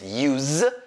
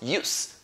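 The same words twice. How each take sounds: First: The word is said with its verb pronunciation. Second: The word is said with its noun pronunciation. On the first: It is used as an action word. "that's when you use it as a verb" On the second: It is used as a naming word. "when you use it as a noun"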